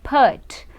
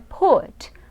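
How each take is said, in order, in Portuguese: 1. A vogal soa como um 'a'. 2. A vogal soa como um 'u'. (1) "muita gente erra a pronúncia desse verbo porque falam put. ... não é som de a" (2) "é som de u. Então é put"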